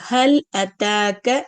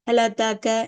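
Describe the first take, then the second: First: The l stops, then a clear glottal stop follows. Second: The l runs into the next vowel, quickly. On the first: The speaker calls it right. "இந்த மாதிரி நம்ம நிதானமாவே போகலாம்" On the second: The speaker calls it wrong. "அப்ப அந்த ஹம்சாவோட சத்தமே கேட்காது, ரொம்ப ஃபாஸ்டா போயிடுவாங்க"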